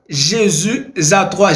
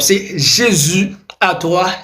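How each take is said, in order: First: The s of Jésus is linked to 'à'. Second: There is no link between Jésus and 'à'. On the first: The speaker calls it wrong. "Mais non, on ne peut pas faire eh bien, une liaison après un nom propre" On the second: The speaker calls it right.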